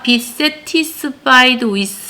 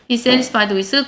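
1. t 소리는 완전히 발음됩니다. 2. t 소리는 약화됩니다. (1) "이렇게 발음해도 되지만" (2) "이 t 발음을 사실은 약하게 내죠"

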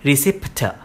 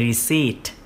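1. ออกเสียงทีละตัวอักษรตามที่สะกด 2. ออกเสียงแบบที่ใช้พูดกันตามปกติ (1) "ถ้าอ่านแบบตรงตัวแล้วแบบอ่านจริงๆแล้วไม่ถูกนะมันคือจะเป็น" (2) "ไม่ใช่ต้องเป็น"

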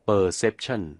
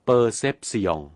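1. ออกเสียงตามเสียงและการเน้นเสียงแบบอังกฤษ 2. ออกเสียงตามเสียงและการเน้นเสียงแบบฝรั่งเศส (1) "อังกฤษอ่านว่า" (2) "ฝรั่งเศสอ่านว่า"

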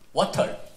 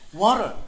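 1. 한국식 억양으로 말해요. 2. 영어식 억양으로 말해요. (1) "코리안 발음" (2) "영어 발음은 water래요"

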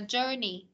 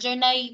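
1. Âm tiết cuối kết thúc rõ ràng bằng 'nee'. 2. Âm tiết cuối không kết thúc bằng 'nee'. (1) "Cái âm sau của nó là ni đúng không?" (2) "không phải journey"

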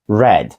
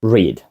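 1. Голосний короткий, як у bed. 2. Голосний довгий, як у need. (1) "Читав в минулому, як буде? Read" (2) "читати – read"

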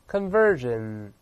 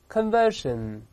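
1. 中间的辅音是浊音 'zh'。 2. 中间的辅音是清音 'sh'。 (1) "美式发音呢把那个是变成日的声音" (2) "同样两个发音都行"

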